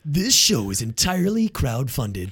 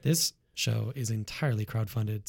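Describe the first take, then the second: First: It is said in a dramatic movie-trailer voice. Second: It is said in a normal speaking voice.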